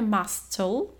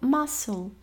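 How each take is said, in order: First: A k sound is pronounced in the middle. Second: No k sound is pronounced in the middle. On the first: The speaker calls it wrong. "Nie czytamy muscle" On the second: The speaker calls it right. "tylko muscle"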